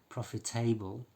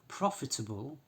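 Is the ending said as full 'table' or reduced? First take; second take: full; reduced. First: The ending is said fully like 'table'. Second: The ending is reduced with a weak vowel. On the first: The speaker calls it wrong. "We don't say profitable" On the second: The speaker calls it right. "we don't pronounce them like table"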